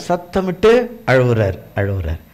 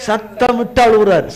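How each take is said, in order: First: Mock weep, lower and hushed; demonstrated weeping. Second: Said in the usual way. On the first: Shown as a demonstration. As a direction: act out the crying on அழுவுறாரு. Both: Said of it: "சத்தமிட்டு அழுவுறாராம்".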